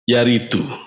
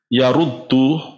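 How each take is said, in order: First: The second vowel is 'i' with a single d. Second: The second vowel is 'u' with a doubled d. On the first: It means to arrive. The speaker calls it right. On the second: It means to reject. The speaker calls it wrong.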